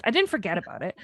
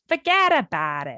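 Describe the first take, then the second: First: Said in the usual way. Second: Hammed-up Jersey "fuhgeddaboudit"; broad mock Jersey vowels; Jersey accent. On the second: Joking after a forgetful story, hammed-up Jersey accent. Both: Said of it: "If anyone's from Jersey".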